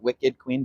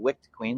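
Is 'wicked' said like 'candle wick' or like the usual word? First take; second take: usual word; candle wick. First: Wicked is said as the usual word. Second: Wicked is said like candle wick. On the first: It sounds like the word for evil. The speaker calls it wrong. "not Wicked Queen" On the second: It refers to a candle wick. The speaker calls it right. "but Wicked Queen, like candle wick"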